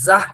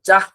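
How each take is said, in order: First: The consonant is breathy and aspirated. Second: The consonant is plain and unaspirated. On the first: The speaker calls it right. "জাহ হবে ... ঝ দিয়া হবে" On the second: The speaker calls it wrong. "জাহ না। ওই বর্গী জ দিয়া হবে না"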